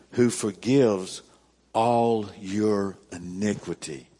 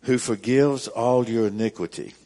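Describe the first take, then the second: First: Slower, pausing after "Who forgives"; slow, weighed reread. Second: Verse read out loud and full; firm scripture reading. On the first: Pastor stopping to reread the verse for emphasis, slow with a pause. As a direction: break the verse in two and let it sink in. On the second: Pastor reading verse three to his congregation, firm and loud. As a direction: announce the verse to the room. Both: Acted.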